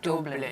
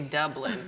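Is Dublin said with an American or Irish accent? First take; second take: Irish; American. First: It is said with a long Irish U. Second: It is said in an American accent.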